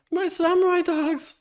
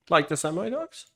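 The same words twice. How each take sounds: First: "samurai" high and excited. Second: Said in the usual way. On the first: Acted. Voiced character line.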